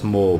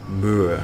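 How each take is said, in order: First: The word sounds just like 'more'. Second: The word has a vowel unlike 'more'. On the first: This is the usual pronunciation. "I know it's moor" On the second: This is the speaker's preferred pronunciation. "but I like to say moor"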